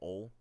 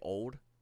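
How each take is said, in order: First: The final d sound is dropped. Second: The final d sound is clearly pronounced. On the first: The speaker calls it right. "you would always say ol, o l e" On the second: The speaker calls it wrong. "you n- never wanted to say old"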